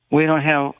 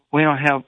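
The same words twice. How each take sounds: The two takes are said the same way.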